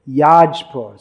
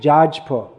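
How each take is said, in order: First: The name begins with a Y sound. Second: The name begins with a J sound. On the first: This is the original form, tied to the word for sacrifice. "That is actually Yajpur" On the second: This is the local Oriya form of the name. "but Oriya pronunciation is Jaj"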